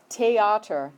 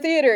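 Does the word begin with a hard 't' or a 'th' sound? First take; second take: hard t; th sound. First: The word begins with a hard 't' sound. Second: The word begins with a soft 'th' sound.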